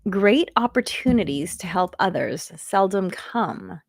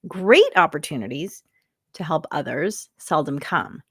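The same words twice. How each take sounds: First: It is read plainly with even emphasis. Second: It is read with strong emphasis on key words.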